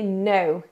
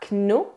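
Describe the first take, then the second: First: The word starts directly with the N sound. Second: A K sound is pronounced before the N. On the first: The speaker calls it right. "mais no" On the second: The speaker calls it wrong. "on ne dit pas kno"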